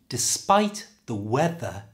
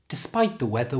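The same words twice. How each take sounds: First: It is said slowly with strong th sounds. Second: It is said at normal conversational speed. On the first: "And in a sentence" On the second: "And at normal speed"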